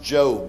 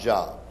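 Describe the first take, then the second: First: The vowel is long, as in 'robe'. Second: The vowel is short, as in 'rob'. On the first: It names the man in the Bible. The speaker calls it right. "Pronounce Job" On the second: It names a task or occupation. The speaker calls it wrong. "not Job"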